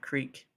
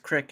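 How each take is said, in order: First: The word is said with a long 'ee' vowel. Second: The word is said with a short 'ih' vowel. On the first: The speaker does not sound Southern. "and not creek" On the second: The speaker sounds Southern. "she's Southern because she says crick"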